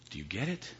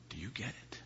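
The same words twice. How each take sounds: First: Said in the usual way. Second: Whispered, hushed repeat; preacher whispering to the congregation. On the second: Real, not acted. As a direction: drop to a whisper.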